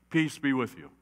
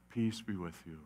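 First: Said in the usual way. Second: Much softer and lower, tender; calm frightened friends softly; gentle Jesus greeting. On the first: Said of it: "what are the first words Jesus says?". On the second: Acted. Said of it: "Jesus says".

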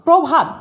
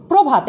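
First: প্রভাত as "prawbhat", higher and louder; as-written vowel. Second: প্রভাত as "probhat"; closed "o" after pr in প্রভাত; correct spoken vowel. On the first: Teacher reads the spelling, প্রভাত with open "aw". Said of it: "লিখছি". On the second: Teacher models pronunciation, প্রভাত with closed "o". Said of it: "একটা ও চলে আসলো". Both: Shown as a demonstration.

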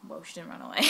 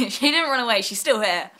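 First: Said in the usual way. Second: Louder, laughing through "didn't"; laughing correction. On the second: Real, not acted. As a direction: laugh it off as you correct yourself.

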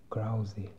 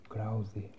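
Both takes have the same delivery.

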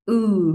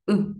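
First: Ừ held long and said louder, lips rounded forward. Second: Ừ cut short with slack lips; short relaxed u. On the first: Teacher contrasting long ừ with the short one. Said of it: "Âm bên tay trái sẽ là". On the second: Teacher contrasting short ừ with the long one. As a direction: clip ừ short and loose. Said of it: "bên tay phải sẽ là". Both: Shown as a demonstration.

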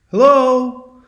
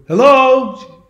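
First: High, loud sung-out echo; echoing high hello; Echo repeating. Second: High, loud drawn-out hello; lost traveler's loud high call. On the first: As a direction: parrot the call back, high and held. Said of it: "Echo can only repeat what you've said". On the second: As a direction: call into the distance for an answer. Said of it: "starts yelling out". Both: Retold or imitated.

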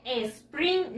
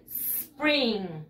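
First: SPRING with an "e" before the S, "espring"; wrong extra vowel. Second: SPRING starting on a long hissed S, no vowel before it; pure initial S. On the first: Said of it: "no se dice spring". (con una "e" delante, "espring") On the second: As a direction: stretch the S of "spring", "sss-pring". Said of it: "solamente la S". (solo la S inicial, alargada) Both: Shown as a demonstration.

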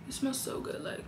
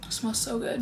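First: Breathy whisper, almost no voice. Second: Said in the usual way. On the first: Real, not acted. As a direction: whisper it like a secret. Praising the perfume again.

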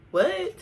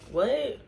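First: What? shot up high and louder; a sharp high incredulous What?; mock surprise. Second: Said in the usual way. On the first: Vlogger hamming up a second What?, high and louder. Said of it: "higher what take". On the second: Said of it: "plain what take".

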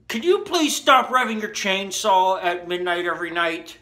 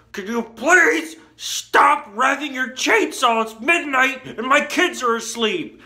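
First: Higher, pleading mock-neighbor voice; imitated neighbor complaint. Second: High, loud mock scream, stretched key words; imitated screaming. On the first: Neighbor phoning to complain about the chainsaw, mock-pleading. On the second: Neighbor at midnight with sleeping kids, imitated screaming. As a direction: scream it like a fed-up neighbor, hammed up. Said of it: "really screaming at me".

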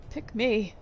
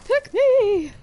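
First: Said in the usual way. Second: High, loud shrieking ghoul plea. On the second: Shown as a demonstration. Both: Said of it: "I'll be a ghoul voice for your games".

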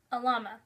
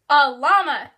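First: Said in the usual way. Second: Much louder repeat of "A llama"; emphatic repeat. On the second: Acted. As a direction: say "llama" loud and drawn out. Repeats louder after being asked what.

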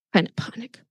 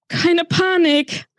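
First: Quietly trying to stay calm; hushed self-reassurance. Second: High, drawn-out panicky cry; losing composure while urging calm; panicked self-command. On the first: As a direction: say it under your breath. Narrator steadies himself, first take. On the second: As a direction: stretch it out, pitched high in alarm. Same words repeated in rising panic. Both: A narrator's reading.

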